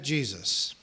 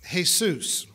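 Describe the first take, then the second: First: The name is said with English sounds. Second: The name is said with Spanish sounds.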